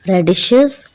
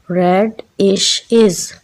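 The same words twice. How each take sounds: First: Said in the usual way. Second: रेडिशेस slowly split as रेड-इश-इज़; syllable by syllable. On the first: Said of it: "इसको हम अगर break करें". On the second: Shown as a demonstration. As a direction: break रेडिशेस into three separate beats, red-ish-iz. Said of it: "इसको हम अगर break करें syllables में". (रेडिशेस को सिलेबल्स में तोड़कर, रेड-इश-इज़)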